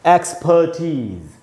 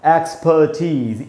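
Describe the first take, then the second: First: The last syllable sounds like 'teez'. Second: The last syllable sounds like 'teez'.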